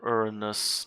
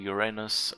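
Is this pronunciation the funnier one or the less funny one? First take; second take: less funny; funnier. First: The word is said in the less funny way. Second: The word is said in the funnier-sounding way.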